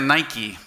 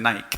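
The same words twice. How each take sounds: First: The name is said with English-style pronunciation. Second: The name is said with Spanish-style pronunciation. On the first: This is how the brand itself says the name. "Lo pronuncia Nike" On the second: This is how local Spanish speakers say the name. "pero ustedes dicen Nike"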